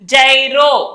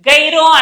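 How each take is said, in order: First: The word begins with a soft 'j' sound. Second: The word begins with a hard 'g' sound. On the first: The speaker calls it right. "జైరో జా జైరో అంటాము" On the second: The speaker calls it wrong. "గైరో అనకూడదు"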